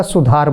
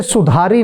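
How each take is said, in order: First: सुधार ending clean on the r, no vowel after; correct form. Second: सुधारी with a long final ee, the wrong way; wrong form. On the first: Teacher shows the correct reading, clear pronunciation. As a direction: close सुधार on the r. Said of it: "सुधार बोला जाएगा". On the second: Teacher shows the wrong reading, mock mistaken pronunciation. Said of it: "जैसे सुधारी नहीं बोला जाएगा". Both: Shown as a demonstration.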